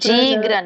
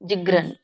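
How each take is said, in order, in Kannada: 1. ಮೊದಲ ಸ್ವರವನ್ನು ದೀರ್ಘವಾಗಿ ಹೇಳಲಾಗಿದೆ. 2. ಮೊದಲ ಸ್ವರವನ್ನು ಹ್ರಸ್ವವಾಗಿ ಇಡಲಾಗಿದೆ. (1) "ಜೀಗ್ರನ್ ಅಲ್ಲ" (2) "ಜಕ್ಕೆ ದೀರ್ಘ ಹೇಳಂಗಿಲ್ಲ"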